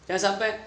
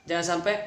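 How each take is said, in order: The two takes are said the same way.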